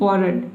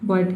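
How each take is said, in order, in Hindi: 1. इस शब्द में 'r' की ध्वनि बोली जाती है। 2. इस शब्द में 'r' की ध्वनि नहीं बोली जाती। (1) "इस तरह से आपको नहीं पढ़ना है" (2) "आर को प्रोनाउंस किया ही नहीं जा रहा है"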